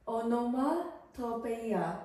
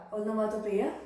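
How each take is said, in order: First: Onomatopoeia said as a careful statement, falling at the end; tentative pronunciation. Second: Onomatopoeia? asked back with a rising tune; questioning rise. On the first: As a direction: try out onomatopoeia as a flat guess. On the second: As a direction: check the word Onomatopoeia? with an unsure rise. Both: Shown as a demonstration. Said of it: "sorry if I pronounce this wrong".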